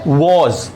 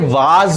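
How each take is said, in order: First: The vowel is a rounded 'aw' sound. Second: The vowel is an open, unrounded 'ah' sound. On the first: The speaker calls it right. "तो सही pronunciation क्या है?" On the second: The speaker calls it wrong. "बहुत से learners इसे वाज भी कहते हैं, यह एक गलत प्रोनाउंसिएशन है"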